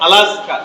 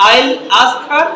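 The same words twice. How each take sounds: First: "আলাস্কা", the three words fused into one; native linking. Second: "I'll ask her" with the words kept apart; learner pronunciation. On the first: Teacher contrasts native speakers with us, fused "আলাস্কা". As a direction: blend it smoothly into "আলাস্কা". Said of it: "আর এরা বলছে". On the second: Teacher shows how we say it, separated "I'll ask her". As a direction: sound each word of "I'll ask her". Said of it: "তাহলে আমরা বলি যে". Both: Shown as a demonstration.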